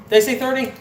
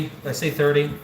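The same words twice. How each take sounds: First: Higher, disbelieving "Did I say thirty?" with weight on "I"; surprised. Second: Said in the usual way. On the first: Real, not acted. Streamer realizing he miscounted the bills, surprised. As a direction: catch yourself in a counting slip.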